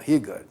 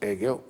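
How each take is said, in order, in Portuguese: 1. O nome é dito com pronúncia alemã. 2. O nome é dito com pronúncia do português brasileiro. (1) "os alemães falam Hegel" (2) "que nós aqui pronunciamos Hegel"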